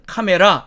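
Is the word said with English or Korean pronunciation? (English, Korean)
Korean. It is said with Korean loanword pronunciation. The speaker calls it wrong. "우리는 카메라 이렇게 읽습니다"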